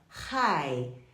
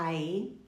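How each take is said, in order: First: The word starts with an audible h sound. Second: The word starts without an h sound. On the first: The speaker calls it right. "você fala hi" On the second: The speaker calls it wrong. "Você não fala I"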